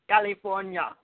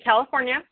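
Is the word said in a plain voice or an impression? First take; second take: impression; plain. First: It is said in an imitated Austrian accent. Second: It is said in the speaker's ordinary voice.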